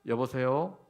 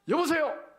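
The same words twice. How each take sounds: First: It sounds neutral and polite, like answering a phone. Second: It sounds sharp and annoyed. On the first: The speaker is simply answering a phone call. "전화 받을 때" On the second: The speaker is displeased with something. "이렇게 하면 뭔가 좀 마음에 안 들 때예요"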